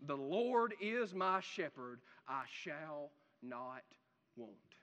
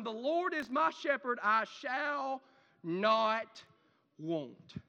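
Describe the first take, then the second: First: Much softer, slow, heartfelt verse; sincere. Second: Said in the usual way. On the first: Shown as a demonstration. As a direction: say it slowly as a quiet personal confession. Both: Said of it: "can you say that in full sincerity".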